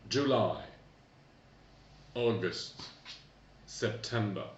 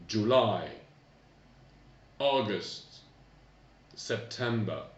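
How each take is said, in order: No difference in how they are said.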